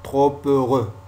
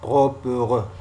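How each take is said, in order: Both takes have the same delivery.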